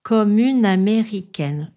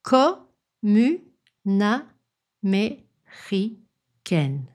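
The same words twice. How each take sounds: First: It is said fast, with all sounds linked. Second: It is said slowly, syllable by syllable.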